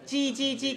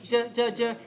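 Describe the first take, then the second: First: The vowel is full and clear. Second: The vowel is weak and reduced. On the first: The speaker calls it right. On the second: The speaker calls it wrong. "J weak"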